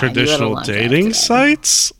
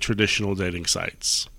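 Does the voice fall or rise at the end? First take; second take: rise; fall. First: The voice rises at the end like a question. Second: The voice falls at the end like a statement. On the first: It is asked as a question. The speaker calls it right. "That was a question" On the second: It is stated as a fact. The speaker calls it wrong. "That was a question. I'm sorry"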